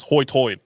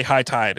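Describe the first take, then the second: First: "hoy-toid" with OY for the long I; island brogue vowels on "hoy-toid"; island pronunciation. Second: Said in the usual way. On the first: Shown as a demonstration. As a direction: say high tide as "hoy-toid". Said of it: "that's how they say high tide".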